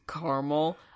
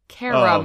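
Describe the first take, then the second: First: The word is said with two syllables. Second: The word is said with three syllables. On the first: "it throws me off every time I hear it" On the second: "They just like forget the other A"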